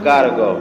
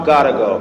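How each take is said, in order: The two takes are said the same way.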